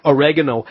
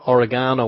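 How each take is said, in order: First: "oregano" as o-REG-ano, stress on the second syllable; American pronunciation. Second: Said in the usual way. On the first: Shown as a demonstration. Co-host gives listeners the American version of oregano, American pronunciation. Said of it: "as the Americans say".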